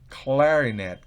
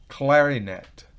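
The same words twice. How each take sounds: The two takes are said the same way.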